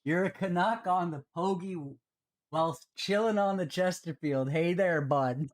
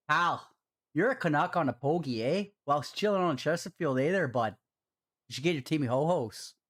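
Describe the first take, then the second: First: Said in the usual way. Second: Donation read out in a Canadian accent; typical Canadian accent. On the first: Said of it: "I'm gonna have to say that". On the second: Shown as a demonstration. Streamer redoing a viewer's donation message, in a typical Canadian accent. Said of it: "say that in your typical Canadian accent".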